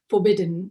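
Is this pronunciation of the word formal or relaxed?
formal. The word is pronounced in a formal, careful accent. "the first movie it was more formal, the accent"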